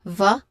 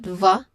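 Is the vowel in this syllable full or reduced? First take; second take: reduced; reduced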